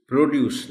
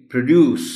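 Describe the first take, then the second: First: "پروڈیوس" as PRO-duce, full O; wrong pronunciation. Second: "پروڈیوس" as pruh-DUCE, high and loud; correct pronunciation. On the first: Teacher rejecting the common error, "پروڈیوس" as proh-duce. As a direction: say "پروڈیوس" with a long oh. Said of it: "پروڈیوس نہیں". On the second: Teacher applying the same rule, "پروڈیوس" as pruh-DUCE. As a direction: say "پروڈیوس" with a schwa in pr. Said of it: "یہ بھی". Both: Shown as a demonstration.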